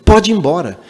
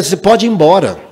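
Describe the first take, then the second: First: Curt, rude dismissal; mildly mock a boy's rude order to leave. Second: Rude dismissal. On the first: Boy rudely telling the single mother to leave, mock curt. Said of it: "Falei assim, grosseiramente". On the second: Retold or imitated.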